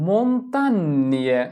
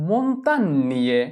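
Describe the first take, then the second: No difference in how they are said.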